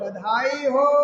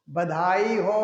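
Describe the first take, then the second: First: It is said in a loud voice. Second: It is said in a quiet voice.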